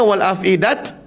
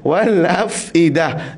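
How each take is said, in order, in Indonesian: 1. Kata itu berakhir dengan bunyi t. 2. Kata itu berakhir dengan bunyi h. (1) "Jangan wal afidat, tak boleh" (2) "jadikan ha"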